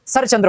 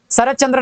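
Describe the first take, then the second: First: शरतचंद्र as sharach-chandra; merged ch. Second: शरतचंद्र with t heard before ch; separate t. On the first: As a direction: fold the t of शरतचंद्र into ch. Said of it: "होता है". (शरतचंद्र, त की जगह च्च) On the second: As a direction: say शरतचंद्र as sharat-chandra. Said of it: "नहीं होता". (शरतचंद्र, च से पहले त) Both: Shown as a demonstration.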